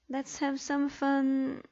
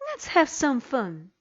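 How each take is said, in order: First: It is said plainly, without strong feeling. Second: It is said excitedly, with strong feeling. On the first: The speaker calls it wrong. "the intonation was all wrong" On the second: The speaker calls it right. "I will read them correctly"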